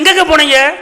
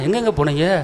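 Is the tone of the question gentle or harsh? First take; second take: harsh; gentle. First: The question sounds harsh and scolding. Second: The question sounds gentle and affectionate. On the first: The wife is angry that he came late. The speaker calls it wrong. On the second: The wife lovingly missed him and waited. The speaker calls it right.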